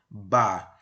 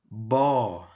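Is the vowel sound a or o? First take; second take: a; o. First: The vowel is pronounced as an open a. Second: The vowel is pronounced as a rounded o. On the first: "Bet mais Kamatz Gadol, Ba" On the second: "Bet mais Kamatz Katan, Bo"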